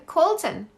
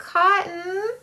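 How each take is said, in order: First: "Colton" with the L restored; corrected name. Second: "Cotton" said for the name Colton; mispronounced name. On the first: Streamer fixing a viewer's child's name, corrected. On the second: Streamer misreading a viewer's child's name, mispronounced. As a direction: say "Cotton", without the L. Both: Real, not acted. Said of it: "There we go. Sorry".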